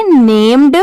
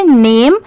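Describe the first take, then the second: First: नेम्ड ending in a clear d; नेम्ड, the spelling with d added. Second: नेम said with no d at the end; नेम, the spelling without the final d. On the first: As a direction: add the d and say नेम्ड. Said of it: "D add हो गया तो इसे क्या पढ़ेंगे". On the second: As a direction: stop cleanly at नेम. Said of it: "तो इसे क्या पढ़ेंगे". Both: Shown as a demonstration.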